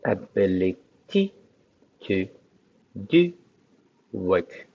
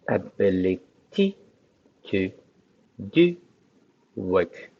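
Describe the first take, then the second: First: It is said with a French accent. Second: The same.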